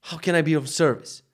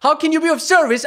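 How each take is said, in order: First: Said in the usual way. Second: High, loud furious mimic of the trainer's phrase; angry mocking repeat. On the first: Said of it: "she's like". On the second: Real, not acted. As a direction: throw "How can you be of service?" back at him, shrill and loud. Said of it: "it's making me fucking mad".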